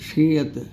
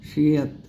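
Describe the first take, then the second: Both takes have the same delivery.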